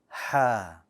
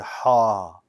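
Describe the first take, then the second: First: The sound is light, with a flat tongue. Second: The sound is heavy and bold. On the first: The speaker calls it right. "Ha is also light" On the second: The speaker calls it wrong. "don't say ha, ha, too bold"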